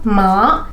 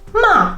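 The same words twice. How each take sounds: First: The pitch rises from low to high. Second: The pitch falls sharply from high. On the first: It means numb or to bother. "the second tone" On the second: It means scolding. "the fourth tone, very straightforward"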